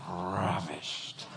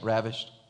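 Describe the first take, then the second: First: The word is said with strong passionate feeling. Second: The word is said flatly, without feeling. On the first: The speaker is overwhelmed with love. The speaker calls it right. "That's a different word" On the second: The word carries no real meaning for the speaker. The speaker calls it wrong. "most of you just say that word and you totally miss it"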